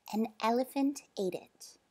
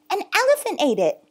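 First: Said in the usual way. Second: High, quick, loud excuse; panicked. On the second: Acted. Boy without a ticket making an excuse, panicked. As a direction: blurt it out in a panic. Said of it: "Bob panicked".

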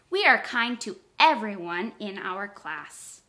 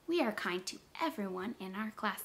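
First: Said in the usual way. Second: Much softer repeat; soft echo. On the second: Shown as a demonstration. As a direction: say it back gently and quietly. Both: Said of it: "repeat the sentence just like I said it".

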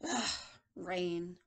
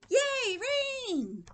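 First: A hint of low, grumbling old man; unhappy old man. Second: High, loud cheer, dropping after; delighted little boy. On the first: Teacher reads old man seeing rain, lightly glum. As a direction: lightly act disgusted by the weather. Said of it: "this old man doesn't look happy". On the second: Acted. Teacher reads little boy seeing rain, gleeful cheer. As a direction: cheer like a thrilled kid. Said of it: "But the little boy's like".

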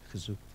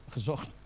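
First: "Gezoekt" with oe and k, not "gezocht"; childlike wrong form. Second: Said in the usual way. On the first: Shown as a demonstration. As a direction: say "Gezoekt" like a child's mistaken past tense. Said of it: "mijn kleinkinderen praten zo". ("Gezoekt", kinderlijke foute vorm met oe-klank) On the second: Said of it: "Ik moet mijn Nederlandse taal weer gaan".

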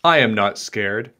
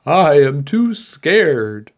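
First: Steady, understated bravery; unafraid tiny knight. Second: Slow, loud, higher-pitched storybook fright; scared candlestick maker. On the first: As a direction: say it evenly, without fear. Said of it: "said the tiny knight". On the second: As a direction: draw out the fearful excuse. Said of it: "The candlestick maker said". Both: A narrator's reading.

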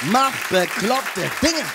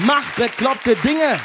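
First: Slow, ending up on Dinge; slow, rising repeat. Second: Slow, every word leaned on; slow emphatic advice. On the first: Comedian repeats his advice, slow with a rising end. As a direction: let Dinge rise, drawn out. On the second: Comedian to the crowd, slow and emphatic. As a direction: hammer home Mach bekloppte Dinge. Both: Shown as a demonstration. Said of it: "repeated punchline".

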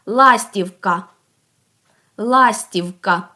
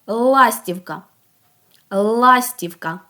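First: "Ластівка" with the final А full and separated; last sound stressed. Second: "Ластівка" with a long, held Л at the start; first sound stressed. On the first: Teacher asks for the last sound, final А in "Ластівка" emphasized. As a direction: lean on the closing А of "Ластівка". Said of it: "А останній". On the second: Teacher asks for the very first sound, opening Л in "Ластівка" held long. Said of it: "Який її найперший звук". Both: Shown as a demonstration.

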